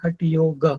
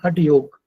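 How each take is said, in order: First: The word ends with a full ga syllable. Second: The word ends on a bare g consonant. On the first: The speaker calls it right. "वो है हठ योग। ग पूरा है।" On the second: The speaker calls it wrong. "जैसे हम बोलते हैं हठ योग"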